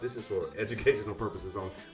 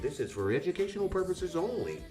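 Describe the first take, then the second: First: It is said in an ordinary speaking voice. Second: It is said in a put-on radio announcer voice.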